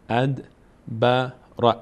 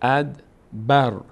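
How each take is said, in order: First: The r is followed by a vowel. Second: The word ends on a bare r.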